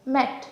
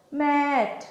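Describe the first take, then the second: First: Said in the usual way. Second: ম্যাট stretched through a long vowel; drawn out. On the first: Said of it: "এটাকে ভাঙো". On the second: Shown as a demonstration. Teacher testing whether the word will break, ম্যাট drawn out. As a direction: stretch ম্যাট slowly as one unbroken piece. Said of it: "চাইলেও কিন্তু আমরা এটাকে ভাঙতে পারছি না".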